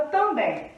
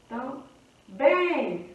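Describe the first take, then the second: First: Said in the usual way. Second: "Também" split, pause, then a long BÉM; stress on last syllable. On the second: Shown as a demonstration. Teacher showing última sílaba forte, "Também" broken before a drawn-out BÉM. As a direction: break "Também" in two and stretch the BÉM. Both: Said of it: "Última sílaba forte".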